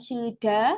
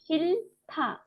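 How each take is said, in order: First: The second syllable starts with a d sound. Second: The second syllable starts with a t sound. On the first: The speaker calls it wrong. "Bukan shilda" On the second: The speaker calls it right. "tetapi shilta ya"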